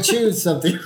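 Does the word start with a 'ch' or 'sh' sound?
ch. The word begins with a hard 'ch' sound. The speaker calls it right. "I mean"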